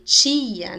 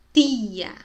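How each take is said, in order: First: "tia" loud, opening on tch; wrong Portuguese T. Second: "Tia" loud, with a pure tongue-tip t; Spanish T. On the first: Teacher contrasting the sounds, emphatic tch. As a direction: begin "tia" like tchia. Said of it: "Não fala tia". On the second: Teacher showing the right sound, Spanish T. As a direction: begin "Tia" on a plain t without tch. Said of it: "fala tia". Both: Shown as a demonstration.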